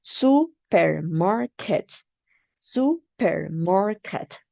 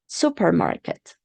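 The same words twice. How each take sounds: First: Supermarket said slowly, syllables stretched; slow clue. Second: Said in the usual way. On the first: Shown as a demonstration. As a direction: give the class a slow hint. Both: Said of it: "this is a clue".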